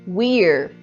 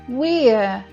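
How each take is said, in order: First: It is said with an American accent. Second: It is said with a British accent.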